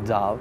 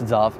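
First: The name starts with a W sound. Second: The name starts with a V sound. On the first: The speaker calls it wrong. "not Zav" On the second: The speaker calls it right. "it's the W actually pronounced V, so it's Zav"

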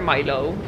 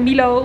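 First: The name is pronounced with English sounds. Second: The name is pronounced with Dutch sounds. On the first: The speaker calls it right. "maar Milo. Of ze Engels, zeg maar" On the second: The speaker calls it wrong. "dus geen Milo"

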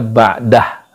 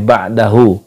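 First: The final u is dropped, ending on h. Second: The word ends with a final u vowel.

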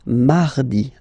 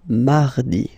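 No difference in how they are said.

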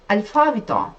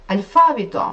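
No difference in how they are said.

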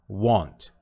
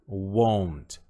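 First: The vowel is an open 'ah' sound. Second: The vowel is a rounded 'oh' sound. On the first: "Tem também a pronúncia do want" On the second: "Pode colocar um O e um U assim"

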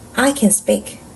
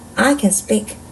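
Both takes have the same delivery.

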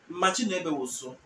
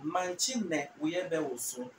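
First: The phrase is spoken quickly. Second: The phrase is spoken slowly. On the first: "when you say it fast" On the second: "you're saying it slow"

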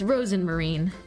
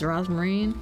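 First: The name is said with an 'en' syllable. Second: The name is said without an 'en' syllable. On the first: The speaker calls it right. "I should probably start reading her name right" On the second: The speaker calls it wrong. "Elise reads it wrong"

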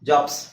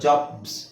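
First: The word ends with an s sound. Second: The word ends with a z sound. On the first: The speaker calls it wrong. "ಜಾಬ್ಸ್ ಅಲ್ಲ" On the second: The speaker calls it right. "ಬಿ ಮತ್ತು ಝೆಡ್ ಒಟ್ಟಿಗೆ ಬರುತ್ತಲ್ವಾ"

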